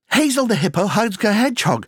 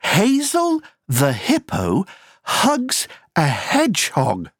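First: The sentence is spoken at a very fast pace. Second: The sentence is spoken at a moderate pace.

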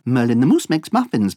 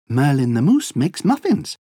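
First: The sentence is said at a very fast pace. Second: The sentence is said at a fast pace. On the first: "Encore plus vite" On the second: "Allez plus vite"

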